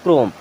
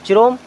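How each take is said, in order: First: It begins with a 'k' sound, the h silent. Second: It begins with a 'ch' sound and a vowel. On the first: The speaker calls it right. "इसे हम पढ़ते हैं क्रोम" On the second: The speaker calls it wrong. "नहीं"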